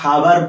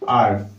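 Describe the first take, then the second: First: The word begins with an h sound. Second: The word begins with a vowel sound. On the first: The speaker calls it wrong. "याकू हावर पढ़ती केते जण, but से totally wrong अटे" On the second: The speaker calls it right. "केवल आर पढ़ा जाए"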